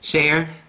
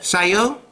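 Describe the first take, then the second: First: The word ends plainly with no added sound. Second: The word ends with an added 'yo' sound. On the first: The speaker calls it right. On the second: The speaker calls it wrong.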